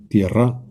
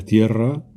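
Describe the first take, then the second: First: Tierra stressed on the last syllable, tierrá; wrong stress. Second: Said in the usual way. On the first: Shown as a demonstration. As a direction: put the accent on the final -rra of tierra. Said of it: "hago esas palabras agudas". (tierra con acento agudo, tierrá) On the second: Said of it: "sonaría más o menos así".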